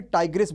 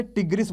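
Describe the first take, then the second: First: टाइग्रिस opening like "tiger"; "ai" diphthong in the first syllable of टाइग्रिस; variant pronunciation. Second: टिग्रिस with a short i at the start; short "i" in the first syllable of टिग्रिस; variant pronunciation. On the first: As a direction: say टाइग्रिस as "TAI-gris". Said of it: "या फिर टाइग्रिस बोलते हैं". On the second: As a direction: say टिग्रिस as "TIG-ris". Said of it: "टिग्रिस बोलते हैं इसको". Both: Shown as a demonstration.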